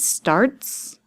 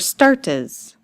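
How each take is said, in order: First: The word ends with a hissing s sound. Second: The word ends with an extra iz syllable.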